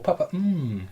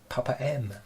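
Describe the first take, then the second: First: The final M is said as a long hum. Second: The final M is said as the letter name.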